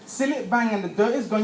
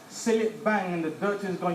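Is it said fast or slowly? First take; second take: fast; slowly. First: It is said at a faster pace. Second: It is said at a slower pace.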